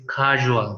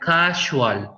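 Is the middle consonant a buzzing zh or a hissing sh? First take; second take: buzzing zh; hissing sh. First: The middle consonant is a voiced buzzing zh. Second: The middle consonant is a voiceless hissing sh. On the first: The speaker calls it right. "it's casual" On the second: The speaker calls it wrong. "is not casual"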